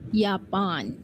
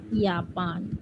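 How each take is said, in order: First: The word begins with a Y sound. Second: The word begins with a Y sound.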